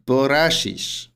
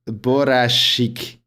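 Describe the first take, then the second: First: The word ends with an sh sound. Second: The word ends with a k sound. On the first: The speaker calls it wrong. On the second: The speaker calls it right.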